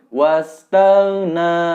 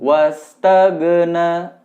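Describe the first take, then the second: First: The gh sound is held into the na. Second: The gh sound bounces with a released echo. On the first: The speaker calls it right. "Sebelum melepaskan go, sebutkan huruf na-nya" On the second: The speaker calls it wrong. "Jadi go-nya mantul"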